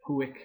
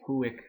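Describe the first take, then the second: No difference in how they are said.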